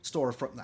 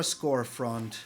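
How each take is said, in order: First: Storefront, said right with a clean st; quick self-correction, Storefront; corrected word. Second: Scorefront, with sc where st belongs; mispronounced. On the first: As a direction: correct yourself: Storefront, st sound. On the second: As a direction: say Scorefront, slipping an sc in for st. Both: Real, not acted. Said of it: "I don't know why I keep on saying Scorefront".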